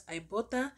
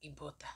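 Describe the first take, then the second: First: Ibotta said "eye-BOTTA"; long-I pronunciation. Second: Ibotta said "ee-BOTTA"; ee pronunciation. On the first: Host shows viewers how some say Ibotta, as "eye-BOTTA". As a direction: start Ibotta with an "eye" sound. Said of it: "Some people pronounce it as". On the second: Host shows viewers the other way, Ibotta as "ee-BOTTA". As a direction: start Ibotta with an "ee" sound, dropping lower. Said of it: "and some pronounce it as". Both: Shown as a demonstration.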